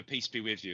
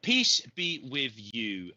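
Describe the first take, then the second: First: Said in the usual way. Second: Slow, gentle blessing. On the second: Real, not acted. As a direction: bless her slowly and warmly. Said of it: "blesses Jenny slowly".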